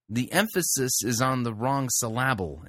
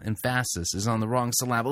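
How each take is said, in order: First: "syllable" stressed on the middle, syl-LA-ble, "emphasis" normal; wrong-syllable stress. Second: "Emphasis" as em-FASS-is, "syllable" as syl-LA-ble; wrong-syllable stress. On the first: Critic joking about misplaced emphasis, "syllable" said syl-LA-ble. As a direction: put the weight on LA in "syllable". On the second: Critic joking about misplaced emphasis, em-FASS-is and syl-LA-ble. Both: Shown as a demonstration.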